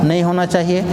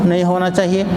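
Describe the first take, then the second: No difference in how they are said.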